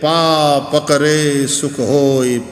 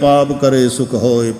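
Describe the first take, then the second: First: It is said slowly, with syllables split apart. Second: It is said at a normal, running pace. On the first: Grasping the feet brings happiness. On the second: Committing sin brings happiness.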